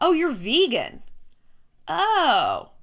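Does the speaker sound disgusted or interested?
disgusted. The tone sounds disgusted and dismissive. The speaker looks down on vegans. "What's the obvious assumption about their feelings towards vegans? Ugh"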